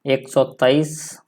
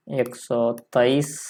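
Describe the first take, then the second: First: Slow, spaced एक सौ तेईस; teacher reading एक सौ तेईस in Hindi slowly. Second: Very slow एक सौ तेईस; teacher dictating एक सौ तेईस even slower; slower dictation. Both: Shown as a demonstration. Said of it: "Hindi में क्या लिख सकते हैं".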